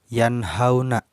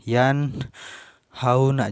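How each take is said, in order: First: The phrase flows without any breath pause. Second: The phrase is cut by a breath pause. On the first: The speaker calls it right. "Tapi jangan sampai terpotong nafas" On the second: The speaker calls it wrong. "Jangan sampai kayak gini"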